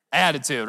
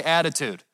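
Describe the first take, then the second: First: Mock sassy, pitched lower; with attitude. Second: Said in the usual way. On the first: Shown as a demonstration. Preacher jokingly showing the congregation what not to do, with attitude. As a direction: say the word with playful attitude. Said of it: "don't say it with attitude". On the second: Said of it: "look at your neighbor and say".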